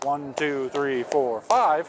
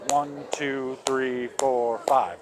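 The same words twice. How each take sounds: First: The counting is fast. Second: The counting is slow.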